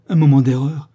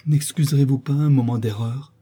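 First: Loud, incredulous question; indignant echo. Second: Mildly pleading question. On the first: Sophie repeats her lover's excuse, loudly indignant. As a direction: throw the excuse back at him. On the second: The lover begs his cousin to excuse him, mildly pleading. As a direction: ask gently to be forgiven. He pleads, she throws it back. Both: A narrator's reading.

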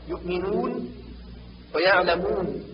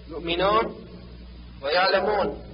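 First: يؤمنون ويعلمون with pure long u; rounded pure waw. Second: يؤمنون ويعلمون with final -un opened toward -on; waw leaning to alif. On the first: Teacher corrects, يؤمنون ويعلمون with fully rounded u. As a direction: push rounded lips forward for the u in يؤمنون ويعلمون. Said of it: "بضم الشفتين وإبرازهما". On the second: Teacher shows the error, يؤمنون ويعلمون with an open o-like waw. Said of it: "النطق بالواو ما بين الواو والألف". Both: Shown as a demonstration.

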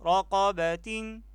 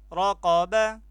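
First: رقبة said slowly as raqabatin, the final tin drawn out; slow, syllable by syllable: رقبة as ra-qa-ba-tin; with tanween kasra. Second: رقبة said raqaba, ending on a plain open a; رقبة said raqaba, no nunation yet; without tanween. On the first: Teacher spelling for pupils, slowly adding tanween to رقبة: raqabatin. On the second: Teacher spelling for pupils, saying رقبة as raqaba without tanween. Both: Shown as a demonstration. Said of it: "تا كسرتين تين".

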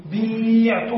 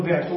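First: بيعت with the i stretched long, "biii-tu" with ayn before the t; long vowel before deletion. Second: بعت with a short i straight into the ayn, "bi'tu"; short vowel after deletion. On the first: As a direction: hold the ya sound in بيعت, drawing it out. (بيعت بمدّ الياء مدًّا طويلًا: بِيييعْتُ) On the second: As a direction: say بعت compactly, no lengthening of the vowel. (بعت بكسرة قصيرة دون مدّ: بِعْتُ) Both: Shown as a demonstration. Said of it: "نحذف الياء".

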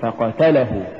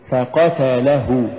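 First: "فقتله" run through, la unpushed; mispronounced فقتله. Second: "فقتله" slowly, gentle push on la before hu; correct فقتله. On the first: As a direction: say فقتله letting the lam slip by. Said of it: "ولا تقل". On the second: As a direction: lean lightly on the lam of فقتله. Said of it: "قل". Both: Shown as a demonstration.

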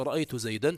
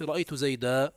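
First: Said in the usual way. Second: زيدا ending in a long a, no final n; pausal form. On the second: Shown as a demonstration. Teacher showing students the pause form, tanwin turned to a. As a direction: say زيدا as zaydā, stopping on the vowel. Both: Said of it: "تقول عند الوقف".

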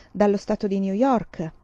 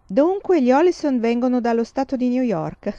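First: New York said with stuck-up pride; proud boast. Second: Louder, higher, mock-impressed echo; amused. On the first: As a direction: show off where you come from. Nellie boasting. (Nellie si vanta di New York, con boria) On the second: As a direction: tease the boast with a chuckle. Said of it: "Papà era divertito". (papà ripete la vanteria di Nellie divertito, più alto e forte) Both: A narrator's reading.

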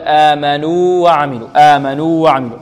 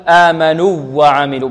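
First: آمنوا with a long stretched u, then light وعملوا; correct separation. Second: آمنوا وعملوا with a short u and doubled w; wrong merging. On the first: Teacher correcting the mistake, long separated vowel. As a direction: draw out the u of آمنوا before the w. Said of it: "بل". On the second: Teacher showing the incorrect merging, doubled w. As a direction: lean on the w joining آمنوا to وعملوا. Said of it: "لا نقول". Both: Shown as a demonstration.

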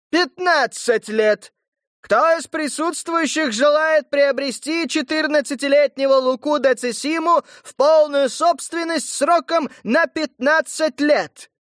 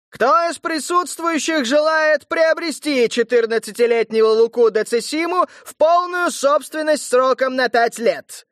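First: Slower emphatic auction call; town crier. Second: Loud auction call; town crier. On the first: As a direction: stress the new fifteen years. Herald repeating with new terms. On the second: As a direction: call out to the crowd. Herald auctioning boy to crowd. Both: Acted.

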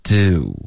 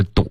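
First: "Do" drawn out with a lip glide; gliding do. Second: "do" short, with no glide, in a Chinese accent; wrong Chinese-style do. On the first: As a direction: slide "Do" slowly into rounded oo. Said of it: "一定要有滑动". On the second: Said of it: "不是do". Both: Shown as a demonstration.

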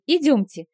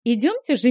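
First: "идёмте!" repeated higher, with a falling end; a brighter, more insistent "идёмте!"; higher eager urging. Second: "Идёмте же" bright, with a falling stress on "Идёмте"; eager "Идёмте же" pushed up and out; eager urging. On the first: Vilma repeats urging guests. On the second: Vilma chirps urging guests along. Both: Acted.

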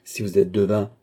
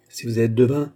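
First: Weight on "êtes", not on "devin"; "êtes" stressed, "devin" left falling. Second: "devin" lifted at the end with a rise; "devin" stressed with a rising tune. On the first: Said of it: "repeated taunt, stress on êtes". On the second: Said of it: "repeated taunt, stress on devin". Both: Acted.

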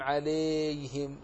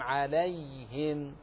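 First: عليهم with a kasra on the lam, rising; demonstrated error; wrong form. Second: عليهم slow, with an open fatha on the lam; correct form. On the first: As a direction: mispronounce عليهم as ʕilehim. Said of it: "يحذر ها هنا أن تقرأ". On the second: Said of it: "بل تقول". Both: Shown as a demonstration.

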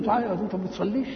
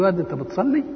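First: Put-on quick, accusing rebuke of the boy; scolding reproach. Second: Said in the usual way. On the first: Shown as a demonstration. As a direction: scold him fast for skipping prayer. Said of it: "تنكر عليه". (توبيخ سريع بنبرة استنكار) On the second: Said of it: "على بعادتك كده".

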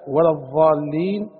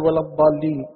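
First: Slow "الضالين", its ض softened into an emphatic ظ; ẓā' in place of ḍād. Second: "الضالين" with a full ḍād, tongue kept in; correct ḍād. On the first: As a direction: say الضالين with a tongue-between-teeth "dh" sound. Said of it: "بدل "ولا الضالين"؟". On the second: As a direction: say الضالين with a heavy stopped "d" for ض. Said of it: "بدل". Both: Shown as a demonstration.

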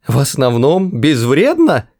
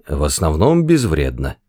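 First: Outraged cry. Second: Said in the usual way. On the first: Acted. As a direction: throw the words back in shock. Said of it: "вскричал Артур". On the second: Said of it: "произнёс Форд и смущённо кашлянул".

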